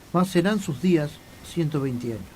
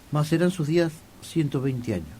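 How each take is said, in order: No difference in how they are said.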